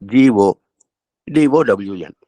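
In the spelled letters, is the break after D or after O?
after O. The letters are spelled with a break after O. The owner will lose everything. "இதே வார்த்தையின் மறுபக்கத்தை"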